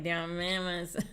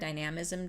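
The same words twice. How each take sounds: First: The word is pronounced in an odd, garbled way. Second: The word is pronounced clearly and smoothly. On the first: "it always comes out really funny" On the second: "I can say that word dynamism"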